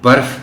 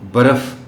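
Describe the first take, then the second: First: No vowel is heard between r and f. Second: An 'a' vowel is heard between r and f. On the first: The speaker calls it right. "दरमियानी हर्फ पर जज़्म होता है" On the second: The speaker calls it wrong. "हम उसके ऊपर ज़बर पढ़ देते हैं"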